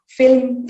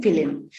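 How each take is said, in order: First: Said in the usual way. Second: "film" in two syllables, fi-lim; inserted vowel. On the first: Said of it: "For example". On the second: Shown as a demonstration. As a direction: put a short i between l and m in "film". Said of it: "insertion of this E sound".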